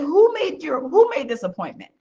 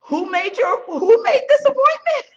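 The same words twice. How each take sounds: First: A pointed, raised demand; sharp, pitched-up challenge; demanding question. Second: Higher, louder and building, a near shout; indignant demand. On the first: She grills the unprepared salesman, pointed and raised. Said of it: "I said". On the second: Telling Rudy how she confronts salesmen, high and loud. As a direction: blow up at the wasted meeting. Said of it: "and I'm like". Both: Retold or imitated.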